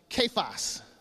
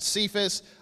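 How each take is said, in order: First: The name is said in the Aramaic way. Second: The name is said in the usual English way. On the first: "Actually, it's pronounced Kephas in Aramaic" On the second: "We pronounce it Cephas"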